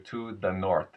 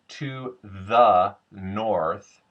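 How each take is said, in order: First: 'The' starts with a sound closer to d. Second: 'The' starts with a normal th sound.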